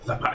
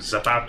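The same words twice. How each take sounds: First: The z is sounded like a th. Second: The z is sounded like an s. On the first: This is the pronunciation that copied a lisp. "his son had a lisp" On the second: This is the original pronunciation. "changed the pronunciation from zapato"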